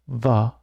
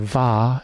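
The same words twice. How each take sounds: First: The vowel is a short reduced schwa. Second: The vowel is a full open 'a'. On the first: The speaker calls it right. "More like the schwa" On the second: The speaker calls it wrong. "we don't say va"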